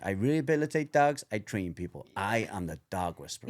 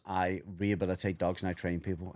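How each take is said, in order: First: Cesar Millan. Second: Said in the usual way. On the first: Retold or imitated. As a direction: quote him with a hint of Mexican accent. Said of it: "And his little Mexican". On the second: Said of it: "The thing that he said was".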